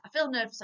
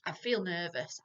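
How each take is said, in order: First: "feel" higher and louder; stress on feel. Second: Said in the usual way. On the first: Pretend. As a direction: hit "feel" firmly in "I feel nervous". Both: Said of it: "it's gonna be able to communicate".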